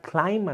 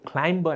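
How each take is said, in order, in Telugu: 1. ఈ పదం b ధ్వని లేకుండా ముగుస్తుంది. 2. ఈ పదం b ధ్వనితో ముగుస్తుంది. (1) "దీన్ని క్లైంబ్ అనండి, బి is the silent consonant" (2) "క్లైంబ్ అనే కాదు"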